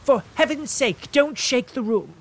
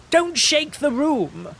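First: Higher, fretful plea; pleading invalid, higher; pleading cry. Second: Much higher, slow, loud cry; shrill invalid's cry, louder; fretful cry. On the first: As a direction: beg him to stop. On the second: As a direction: shriek as if the stamp hurt his nerves. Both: Acted. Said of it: "cried Mister Fairley".

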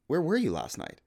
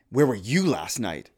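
First: "were" in "Where were you last night?" pushed high and accusing; "Where were you last night?" said as a charge; accusing stress. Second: "Where were you last night?" asked slowly, even and curious; "Where were you last night?" as an open question; seeking to understand. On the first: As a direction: let the accusation ring in "were". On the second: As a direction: ask it gently, wanting to know. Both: Shown as a demonstration. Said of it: "Same question, different emphasis".

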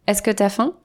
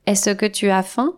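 First: «t'as» squeezed into one syllable; casual spoken French. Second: «tu as» said in full, every syllable clear; formal full pronunciation. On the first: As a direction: swallow «tu as» into «t'as». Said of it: "On dit". («tu» réduit en «t'») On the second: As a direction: say «tu as faim» carefully and fully. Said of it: "on ne dit pas". («tu as» prononcé en entier) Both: Shown as a demonstration.

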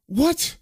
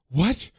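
First: Shocked squeak, rising high; startled high what. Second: Said in the usual way. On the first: A narrator's reading. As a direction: jump up in alarm. Woman startled by intruders.

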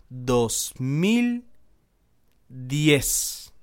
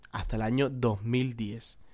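First: DOS, MIL, DIEZ drawn out with long pauses; dramatic reveal. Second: Said in the usual way. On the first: Real, not acted. Storyteller reveals to viewers how long it lasted, dramatic reveal. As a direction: spell out "dos mil diez" word by word for suspense.

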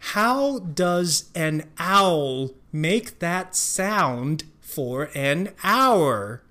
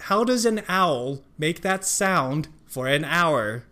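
First: 非常慢地一字一字念 How does an owl make that sound for an hour; 放慢速度把每个字念清楚; slow reading. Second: Said in the usual way. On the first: Shown as a demonstration. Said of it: "slow then normal reading". (慢速示范整句) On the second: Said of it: "normal speed take".

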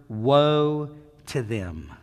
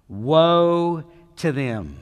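First: Slow, drawn-out woe to them, falling on woe; slow reading. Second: "Woe to them" again, louder and very slow, woe stressed; emphatic repeat. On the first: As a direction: read "woe to them" slowly, leaning on woe. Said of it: "It starts with the word". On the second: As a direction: hammer "Woe" and let it fall. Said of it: "Don't bypass that phrase". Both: Shown as a demonstration.

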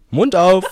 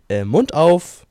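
First: Louder, higher command through laughter; laughing dentist quote. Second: Loud, firm mock dentist order; dentist's command. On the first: Retold or imitated. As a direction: laugh while mocking the eager dentist. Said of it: "ich war immer nur so". (lachend, laut und eifrig nachgemacht) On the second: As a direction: bark it like a dentist mid-work. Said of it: "hat er immer gesagt". (lautes Kommando des Zahnarztes)

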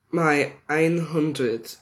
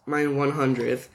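First: Slow German "ein hundert" with German vowels; German number. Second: Said in the usual way. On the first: Shown as a demonstration. Reading a fan's German, saying "ein hundert" slowly.

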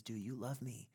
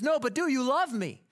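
First: Said in the usual way. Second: High, loud climactic demand; swelling insistence. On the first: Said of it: "he persists in song". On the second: Retold or imitated. Tevye cutting off the song to demand love, loud insistent climax. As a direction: belt the question over the rising music. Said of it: "crescendo of music and vocal prominence".

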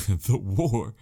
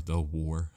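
First: THE WAR in a big, louder put-on voice; hammed-up emphasis. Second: Said in the usual way. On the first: Host joking on which war, hammed-up emphasis on "the war". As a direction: make "the war" sound mock-momentous, after a laugh. Repeats phrase in exaggerated voice.

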